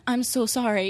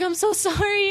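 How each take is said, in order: First: Said in the usual way. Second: Put-on much higher, gushing apology to a child; high sorry apology. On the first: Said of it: "And I'm like". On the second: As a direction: squeak out a sorry as if to a little kid. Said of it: "And I was like".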